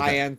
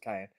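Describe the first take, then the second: First: It is said with two syllables, sigh-an. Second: It is said like the pepper, kai-yen. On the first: This is how some other people say it. "Cyan for some people" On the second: This is the speaker's own way of saying it. "I pronounce it Cayenne"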